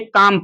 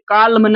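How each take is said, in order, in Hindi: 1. m से पहले L की ध्वनि साइलेंट होती है। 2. L की ध्वनि m से पहले उच्चारित होती है। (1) "यहाँ पे यल जो है साइलेंट है, इसे काम पढ़ेंगे" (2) "इसे काल्म नहीं पढ़ेंगे"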